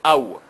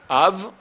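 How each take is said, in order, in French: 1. Il se termine par un son w. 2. Il se termine par un son v. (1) "c'est aou" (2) "c'est av"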